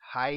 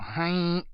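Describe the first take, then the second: First: It is said in a plain voice. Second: It is said in a nasal voice.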